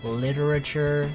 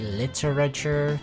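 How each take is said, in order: Both takes have the same delivery.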